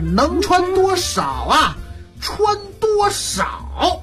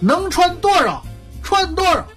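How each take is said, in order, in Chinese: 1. 这句分成两个独立的问句。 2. 这是一个短语，重音落在“多少”上。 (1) "所以就是能穿多少啊？穿多少？" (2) "听我这个轻重音啊"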